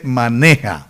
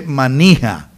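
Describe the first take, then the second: First: Maneja with e and a firm j; the correction: maneja; correct pronunciation. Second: Manija with i, the mistaken form; the wrong form shown: manija; wrong pronunciation. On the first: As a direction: say maneja as the right way. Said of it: "se dice maneja". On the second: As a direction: say manija as the error. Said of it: "No se dice manija". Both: Shown as a demonstration.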